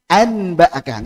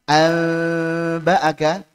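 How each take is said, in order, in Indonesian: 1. Bunyi n yang jelas diucapkan sebelum b. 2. Bunyi sengau yang tersembunyi diucapkan sebelum b. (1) "dibaca dengan izhar yaitu n, nggak cocok" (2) "Dibaca antara nun dengan ba, amba'aka, ikhfa"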